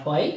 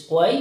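First: WHY with a breath of h before the w; wrong pronunciation. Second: WHY said with a plain w start, no h sound; right pronunciation. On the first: Teacher showing learners what to avoid, WHY with a sounded h. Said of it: "বা not why". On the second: Teacher showing learners the right pronunciation, WHY without an h. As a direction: say WHY as "wai", without aspiration. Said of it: "right pronunciation হলো". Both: Shown as a demonstration.

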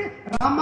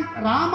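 First: రామ said as "Ramaa", first vowel cut short; misheard name. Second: Said in the usual way. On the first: Shown as a demonstration. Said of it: "counter రాసే వ్యక్తి రామ అని రాస్తారు". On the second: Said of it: "రామ అని చెప్తారు".

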